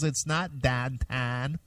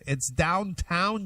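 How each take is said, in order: First: Downtown is said in a western Pennsylvania accent. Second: Downtown is said in a standard American accent.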